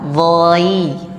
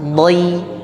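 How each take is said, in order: First: The syllable is said slowly and drawn out. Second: The syllable is said quickly and directly. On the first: "kalau pelan-pelan dhai" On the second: "langsung dhai"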